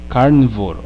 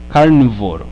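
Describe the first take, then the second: The two takes are said the same way.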